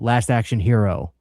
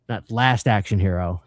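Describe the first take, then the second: First: The word hero carries the main stress. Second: The word hero does not carry the stress.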